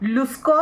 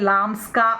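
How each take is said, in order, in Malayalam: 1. ആദ്യ സ്വരാക്ഷരം u ആണ്. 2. ആദ്യ സ്വരാക്ഷരം a ആണ്. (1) "ലുസ്കോ എന്നാണ് മലയാളത്തിൽ എഴുതി വെച്ചത്" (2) "നമ്മൾ പറയുന്നത് ലാംസ്ക എന്നാണ്"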